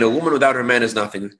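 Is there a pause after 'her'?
no. It is said as one phrase without pauses.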